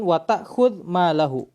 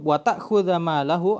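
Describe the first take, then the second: First: The verb ends without any final vowel. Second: The verb ends with a short 'a' vowel. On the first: Do not hit him, and do not take his money either. "dengan sukun" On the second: Do not hit him while taking his money. "kalau dibaca uh, mansub"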